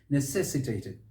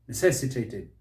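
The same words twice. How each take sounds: The two takes are said the same way.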